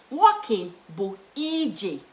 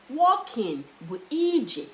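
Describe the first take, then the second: No difference in how they are said.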